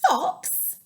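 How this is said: It is said in a surprised, excited voice.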